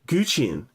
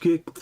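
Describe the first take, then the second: First: The word is said like 'goo-chin', with 'goo'. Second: The word is said like 'gherkin', with 'gur'. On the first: The speaker calls it right. "yes, chin, chin" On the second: The speaker calls it wrong. "I feel like I'm pronouncing it wrong"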